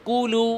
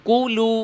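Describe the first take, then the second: The two takes are said the same way.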